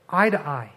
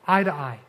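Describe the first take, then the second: No difference in how they are said.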